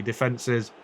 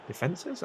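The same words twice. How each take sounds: First: Said in the usual way. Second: "Defences?" slipping up high in a quiet, odd rising query; a strange rising squeak on "Defences?", much softer; said weirdly. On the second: Real, not acted. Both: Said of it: "I said that really weirdly".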